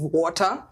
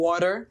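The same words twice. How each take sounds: First: It is said in a native Kenyan accent. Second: It is said in an adopted foreign accent. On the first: The speaker keeps their original way of speaking. "instead of water" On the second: The speaker has adapted so locals understand. "you adapt and start saying water"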